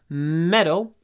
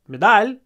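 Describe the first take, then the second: First: The stress is on the first syllable. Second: The stress is on the second syllable. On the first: The speaker calls it right. "The stress is on the first syllable" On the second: The speaker calls it wrong. "Not medal"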